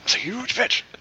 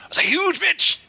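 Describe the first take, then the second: First: The phrase is muttered quietly under the breath. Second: The phrase is said out loud, not muttered. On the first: "It was more like" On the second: "That's not under your breath"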